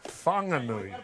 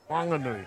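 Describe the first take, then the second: First: The name starts with an aspirated 'wh' sound. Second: The name starts with a plain 'w' sound.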